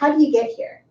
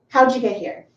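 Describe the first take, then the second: First: Some words run together, somewhat relaxed. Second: How did shrinks to howd, d and y make ja. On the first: The speaker knows the listener but is not close. "When I'm talking with someone who I know, but maybe they're not close" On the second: The speaker is talking to a very close friend. "How did becomes howd. D plus Y is ja"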